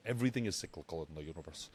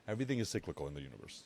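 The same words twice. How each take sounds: First: Quick first take; fast. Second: Even quicker run-through; faster repeat. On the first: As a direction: rush through it. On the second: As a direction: say it again, faster. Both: Shown as a demonstration. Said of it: "You see that?".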